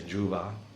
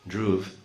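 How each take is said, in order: First: It is said Western-style, with a final vowel. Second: It is said Indian-style, without a final vowel.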